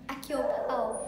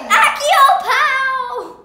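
First: It is said at a normal, soft volume. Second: It is said very loudly.

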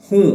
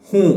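No difference in how they are said.

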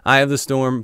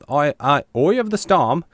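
First: It is said in the speaker's usual accent. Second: It is said in an Australian accent.

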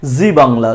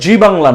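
First: It starts with a buzzing z sound. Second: It starts with a j sound. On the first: The speaker calls it right. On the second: The speaker calls it wrong.

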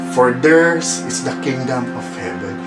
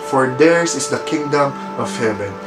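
No difference in how they are said.

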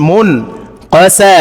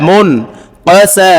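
Both takes have the same delivery.

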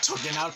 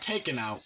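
First: The first word sounds like 'token'. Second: The first word sounds like 'taken'. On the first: The speaker calls it wrong. "sometimes I say token instead of taken" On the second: The speaker calls it right. "My bad"

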